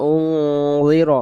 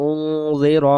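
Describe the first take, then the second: No difference in how they are said.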